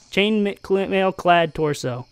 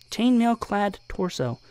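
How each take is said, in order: First: Chainmailclad torso drawn out slowly; slow careful reading. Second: Chainmail-clad torso said softer, cleaned up; quietly fix chainmail-clad; softer quick correction. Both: Shown as a demonstration.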